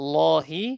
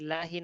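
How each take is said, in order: First: The vowel after l sounds like o. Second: The vowel after l sounds like a. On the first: The speaker calls it right. "লহি এরকম হবে" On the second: The speaker calls it wrong. "লাহি না"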